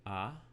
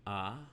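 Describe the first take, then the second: No difference in how they are said.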